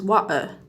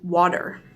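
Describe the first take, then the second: First: The middle t is a glottal stop. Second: The middle t is a soft D-like tap. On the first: "some Brits use a glottal stop" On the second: "a soft sound closer to a D than a T"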